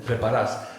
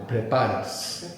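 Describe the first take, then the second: First: "preparas" stressed on the last syllable, pre-pa-RAS; Argentine final stress. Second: "Preparas" slowly, pre-PA-ras; penultimate stress. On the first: Teacher says it the Argentina way, "preparas" with end stress. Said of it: "how I would say it in Argentina". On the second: Teacher shows the accent just before the end, "Preparas" stressed on PA. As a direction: lean on the PA in "Preparas", drawn out. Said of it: "we need the accent just before the end". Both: Shown as a demonstration.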